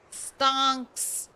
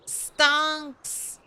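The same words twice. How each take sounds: First: Said in the usual way. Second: Higher, goofy meme delivery; silly drawn-out meme voice; meme stonks voice. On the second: Shown as a demonstration. Meme word said twice.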